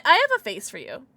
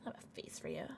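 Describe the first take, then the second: First: Said in the usual way. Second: Very soft, low whisper; hushed unvoiced aside. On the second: Real, not acted. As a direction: whisper it, barely audible. Same line repeated in a whisper.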